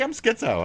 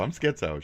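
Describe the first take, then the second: First: Mock crazy squeak. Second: Said in the usual way.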